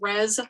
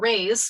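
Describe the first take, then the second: First: The vowel is short, as in 'bed'. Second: The vowel is long, as in 'day'. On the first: This is the form the journal's editor uses. "our editor has always said Res" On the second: This is the more correct Latin form. "Raise is the the more correct Latin pronunciation"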